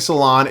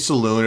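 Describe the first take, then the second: First: The last syllable sounds like 'lon'. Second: The last syllable sounds like 'loon'. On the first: This is the pronunciation the speaker chooses to use. "I'm going with my gut. I'm saying Salon" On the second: This is another possible pronunciation. "It could be Saloon"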